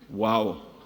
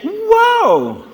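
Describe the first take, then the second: First: It is said flatly, with little emotion. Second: It is said excitedly, with strong emotion.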